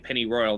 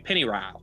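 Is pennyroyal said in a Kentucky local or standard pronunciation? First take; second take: standard; Kentucky local. First: The word is said in a standard pronunciation. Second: The word is said in a local Kentucky pronunciation. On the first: "people don't say pennyroyal" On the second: "they say pennyroyal, ... it's a little bit bastardized"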